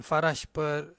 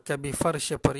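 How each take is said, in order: First: "farash" as two slow syllables, fa-rash; added vowel, mistaken form. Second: "farsy" with no vowel between r and sh; sukun on the r. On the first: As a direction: put an a between r and sh in "farash". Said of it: "bukan farash per". ("farash" salah, r dibaca berbaris) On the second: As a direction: run the r of "farsy" straight into the sh. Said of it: "perkataan itu ada sukun, bukan farash per". ("farsy" dengan huruf r mati) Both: Shown as a demonstration.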